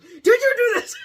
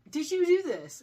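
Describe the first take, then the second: First: The question is asked in a harsh, forceful way. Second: The question is asked in a soft, gentle way. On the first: "in the movie it's like" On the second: "in the book it's soft"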